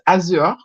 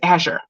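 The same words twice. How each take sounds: First: The word is said with a French pronunciation. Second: The word is said with an English pronunciation. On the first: "in French, French it is Azure" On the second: "We looked it up"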